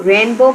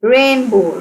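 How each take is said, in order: First: Said in the usual way. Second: rainbow measured out as rain-bow; teacher separating rain, bow in rainbow; syllable by syllable. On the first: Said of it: "कितने syllables हैं". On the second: Shown as a demonstration. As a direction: sound out rainbow in two clear beats. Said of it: "rainbow के कितने syllables हैं".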